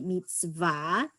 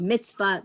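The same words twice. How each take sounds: First: It is said with a standard Hebrew pronunciation. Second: It is said with an American Ashkenazic pronunciation. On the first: The speaker calls it right. "but it's really mitzvah" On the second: The speaker calls it wrong.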